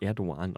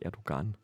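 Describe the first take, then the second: First: The middle g is silent. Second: The middle g is pronounced as a hard g. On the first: The speaker calls it right. "dass man das Erdogan ausspricht" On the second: The speaker calls it wrong. "und nicht Erdogan"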